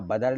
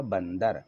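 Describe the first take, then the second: First: बदर as ba-dar, no n; without nasal. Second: बंदर with a clear n before d; with nasal. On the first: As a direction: say बदर with a plain oral vowel. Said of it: "ऊपर बिंदी लगाना है". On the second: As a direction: say बंदर as ban-dar. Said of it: "तब ये क्या बन जाएगा". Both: Shown as a demonstration.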